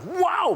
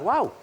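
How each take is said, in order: First: The wow sounds fully amazed and excited. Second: The wow sounds only mildly impressed. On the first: The listener is truly blown away. "Mapapawaw talaga ako" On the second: The listener is pleased but not blown away. "Ngayon, yung wow ko ay parang"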